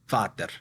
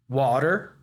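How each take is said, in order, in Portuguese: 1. Ela é pronunciada com uma pronúncia húngara. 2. Ela é pronunciada com uma pronúncia inglesa. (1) "esse meu amigo húngaro, ele vai falar vater" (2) "dentro dessa bola de pronúncia da palavra water"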